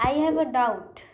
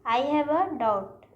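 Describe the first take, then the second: First: Said in the usual way. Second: I have a doubt drawn out slowly; teacher presenting the error slowly; slow wrong example. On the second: Shown as a demonstration. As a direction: read the mistake out slowly. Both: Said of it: "गलत है".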